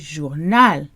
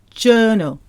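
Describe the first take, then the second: First: The stress is on the last syllable. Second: The stress is on the first syllable. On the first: This is the French way to say it. "The French say journal. ... stress the end of the word rather than the beginning" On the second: This is the English way to say it. "We say journal"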